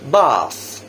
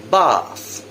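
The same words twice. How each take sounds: First: British accent, with an open 'ah' vowel. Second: British accent, with an open 'ah' vowel.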